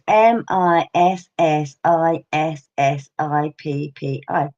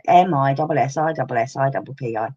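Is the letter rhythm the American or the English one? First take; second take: American; English. First: The letters follow an American-style grouping and rhythm. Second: The letters follow an English-style grouping and rhythm. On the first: This is how Americans spell it aloud. "I've heard Americans say" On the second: This is how children in England learned to spell it. "we go"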